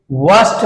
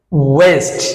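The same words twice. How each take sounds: First: ওয়াস্ট with an open a vowel; common mispronunciation. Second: ওয়েস্ট with a long ei vowel; right pronunciation. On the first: Teacher quoting what we say, ওয়াস্ট with open a. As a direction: say ওয়াস্ট as wast. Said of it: "ওয়াস্ট বলছি আমরা". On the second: Teacher giving right pronunciation, ওয়েস্ট drawn out. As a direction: stretch ওয়েস্ট as weist. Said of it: "right pronounce". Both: Shown as a demonstration.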